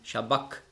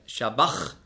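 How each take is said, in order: First: The word ends in a hard k sound. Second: The word ends in a soft, breathy ch sound. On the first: The speaker calls it right. "ausgesprochen so wie ein C hinten im Gaumen" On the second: The speaker calls it wrong. "Also nicht Shabach"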